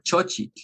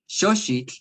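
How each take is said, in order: First: Both consonants are said with a ch sound. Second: Both consonants are said with a sh sound. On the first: "make everything in C H" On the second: "make it everything in X"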